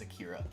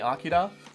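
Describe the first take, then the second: First: The name is said with English pronunciation. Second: The name is said with Japanese pronunciation. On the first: This is how the bearer of the name says it. "But my name is Akira" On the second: This is the pronunciation used in the original language. "the proper way to pronounce it if you're speaking Japanese"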